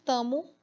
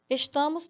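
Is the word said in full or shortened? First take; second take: shortened; full. First: The word is shortened, losing sounds. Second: The word is said in full, three syllables. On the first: This is informal, everyday speech. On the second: This is the formal register.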